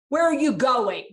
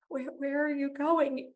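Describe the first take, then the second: First: The question sounds angry and accusing. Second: The question sounds lonely and sad.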